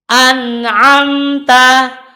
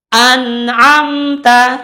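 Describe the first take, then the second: The two takes are said the same way.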